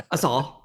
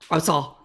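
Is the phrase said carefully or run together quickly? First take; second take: quick; quick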